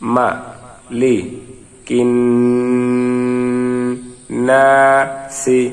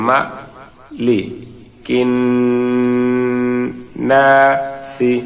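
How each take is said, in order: Both takes have the same delivery.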